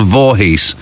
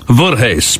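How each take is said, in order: First: The name is pronounced plainly, the way it's spelled. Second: The name is pronounced with a Dutch-sounding pronunciation. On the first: "pronounced as it is spelled" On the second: "I always pronounce them as though they're kind of Dutch"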